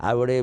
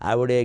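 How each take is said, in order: Both takes have the same delivery.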